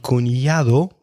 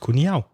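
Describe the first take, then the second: First: The d sound in the ending is pronounced. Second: The d sound in the ending is dropped.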